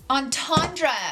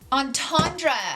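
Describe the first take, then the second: First: It is said like 'on-tahn-druh', with the 'ten' part. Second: The same.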